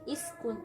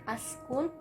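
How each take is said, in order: First: The word begins with an i vowel. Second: The word begins with an a vowel. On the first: "bukan iskun" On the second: "bukan askun"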